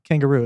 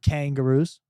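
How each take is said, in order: First: The first syllable is not strongly stressed. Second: The first syllable kang is strongly stressed.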